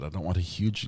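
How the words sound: It sounds calm and clear. The speaker calls it right. "She was very calm and and clear"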